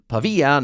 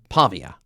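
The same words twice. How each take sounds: First: The stress is on the second syllable. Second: The stress is on the first syllable. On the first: The speaker calls it right. "the stress is on the second syllable and it's Pavia" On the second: The speaker calls it wrong. "not Pavia"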